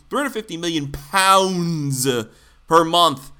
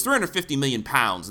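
First: Slow, punched-out "pounds"; emphatic correction. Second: Said in the usual way. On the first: Real, not acted. Host correcting his dollar slip, "pounds" heavily drawn out. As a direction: stretch "pounds" long and hard, then pause.

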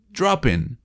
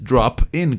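First: "Drop in" as dra-pin; linked consonant. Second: "drop", then a separate "in"; words kept apart. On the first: Teacher showing the linked way, p joined to "in". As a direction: carry the p of "Drop" onto "in". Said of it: "el p se va con el e". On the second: Teacher showing the wrong way, two separate words. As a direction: close "drop" fully before saying "in". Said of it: "No es drop in". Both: Shown as a demonstration.

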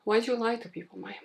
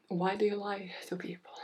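First: Higher-pitched self-reproach; mock scolding. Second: Hushed, breath-only reproach; whispered scolding. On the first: Host scolding herself for broken promises, mock reproach. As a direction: playfully scold yourself in a raised pitch. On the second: Pretend. Host scolding herself for broken promises, whispered reproach. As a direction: whisper the accusation to yourself.

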